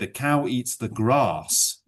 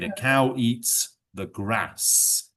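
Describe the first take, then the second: First: It is spoken in a southern English accent. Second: It is spoken in a northern English accent. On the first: "He's from the south of England... He would say" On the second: "I am from the north of England, and I say words like grass. So I would say"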